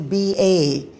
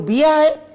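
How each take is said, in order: First: It is said in the speaker's own accent. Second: It is said in the locals' accent. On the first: The speaker's own people said it this way. "We used to say B A" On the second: The locals said it this way. "That sort of pronunciation was a bit different"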